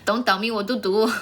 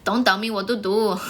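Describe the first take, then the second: First: It is said in an Indian accent, t like d. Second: It is said in an Indian accent, t like d.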